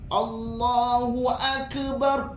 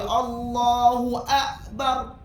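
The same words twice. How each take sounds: First: The k has a bouncing echo after it. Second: The k is cut off sharply with no air. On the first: "Ke sudah salah. Ke itu qalqalah" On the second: "Jangan baca Allahu akbar, akbar. Dia akan jadi macam hamzah di situ"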